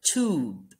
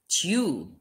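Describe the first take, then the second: First: "tube" said as "toob", a plain oo with no y sound; "tube" pronounced toob, the American way; tube without the y. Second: "tube" said as "tyoob", a y sound before the long u; "tube" pronounced tyoob, the British way; tube with a y glide. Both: Shown as a demonstration. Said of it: "or some might call it".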